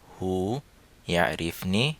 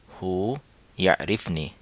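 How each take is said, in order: The two takes are said the same way.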